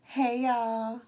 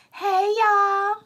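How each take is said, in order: First: Said in the usual way. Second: High-pitched, drawn-out greeting; TikTok mukbang girl. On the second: Retold or imitated. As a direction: impersonate a mukbang creator's squealed hello. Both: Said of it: "what's that girl name on TikTok".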